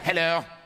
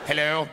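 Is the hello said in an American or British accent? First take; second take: British; American. First: It is said in a theatrical British accent. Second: It is said in a plain American accent.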